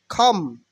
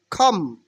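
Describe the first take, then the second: No difference in how they are said.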